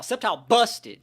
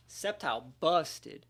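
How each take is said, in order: First: Loud, higher Sceptile busted; hyped call. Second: Said in the usual way. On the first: Real, not acted. Player bragging about Sceptile to viewers, loud. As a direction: punch it out with hype. Hyping his Pokémon.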